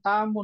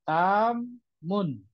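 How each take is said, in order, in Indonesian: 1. Kata itu diucapkan dengan lancar tanpa jeda. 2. Kata itu diucapkan dengan jeda singkat di dalamnya. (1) "jangan langsung tamun" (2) "cara bacanya dijeda dulu"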